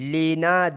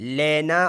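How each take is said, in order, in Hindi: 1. पहला स्वर 'e' जैसी आवाज़ नहीं है। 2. पहला स्वर 'e' जैसी आवाज़ है। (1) "लेना देना नहीं" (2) "इसमें ए जैसी आवाज़ है"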